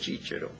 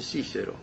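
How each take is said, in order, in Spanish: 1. El nombre se dice a la manera italiana. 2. El nombre se dice a la manera española. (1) "si usted va a los italianos, le dicen Cícero" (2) "A los españoles le dicen Cícero"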